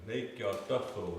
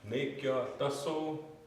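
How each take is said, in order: First: A th sound comes before the final vowel. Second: An s sound comes before the final vowel. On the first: The speaker calls it right. "we're going to say Nakyaktatho" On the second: The speaker calls it wrong. "We're not going to say Nakyaktaso"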